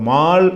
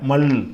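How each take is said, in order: First: The vowel is drawn out long. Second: The vowel is cut short. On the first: The speaker calls it wrong. "மால் என்று வராமல்" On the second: The speaker calls it right.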